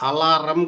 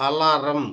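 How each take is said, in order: The two takes are said the same way.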